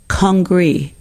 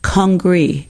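First: The word has an English pronunciation. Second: The same.

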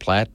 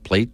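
First: The vowel is short, like in 'cat'. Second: The vowel is long, like in 'day'. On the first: The speaker calls it wrong. "not plat" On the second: The speaker calls it right. "It's pronounced plate"

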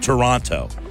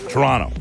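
First: The word is said with every syllable clearly enunciated. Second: The word is blurred together with a rolled R. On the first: This is how outsiders say the name. The speaker calls it wrong. "it's not enunciated like we would enunciate" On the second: This is how locals say the name. The speaker calls it right. "The R is like a rolled R"

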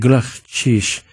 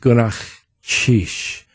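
First: It is said at normal speed. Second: It is said slowly and drawn out.

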